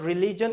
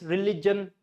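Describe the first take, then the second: First: "religion" said the mistaken way, even syllables; wrong pronunciation. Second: "religion" stressed re-LIJ-un; correct stress. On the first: Teacher showing what not to say, wrong "religion". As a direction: say "religion" as the common mispronunciation. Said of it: "It's not religion". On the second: Teacher correcting learners, "religion" stressed re-LIJ-un. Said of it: "it's religion". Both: Shown as a demonstration.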